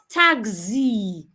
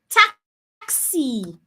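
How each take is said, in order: First: The middle consonant ends in a Z sound. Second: The middle consonant ends in an S sound. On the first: The speaker calls it wrong. "It's not a Z" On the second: The speaker calls it right. "The X there sounds X"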